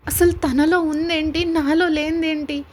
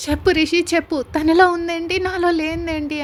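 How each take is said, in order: First: Slow, pointed jealous question, a touch raised; a hurt woman asking what the rival has; jealous demand. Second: Louder, demanding shout; jealous fiancée yelling at Rishi for an answer; angry shouting. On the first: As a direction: lean on అసలు and నాలో, slowly and bitterly. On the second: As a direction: push it up into an angry yell. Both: A narrator's reading. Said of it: "గట్టిగా అరుస్తూ ఉంటుంది".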